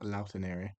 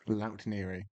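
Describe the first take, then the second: First: The name is said with four syllables. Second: The name is said with three syllables. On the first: The speaker calls it wrong. "not Lautaneri" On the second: The speaker calls it right.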